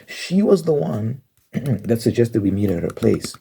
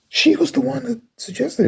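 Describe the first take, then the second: First: Said in the usual way. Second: High, exasperated insistence; indignant. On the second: Real, not acted. Insisting the friend suggested the meetup, a high indignant repeat. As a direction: push it up high in disbelief.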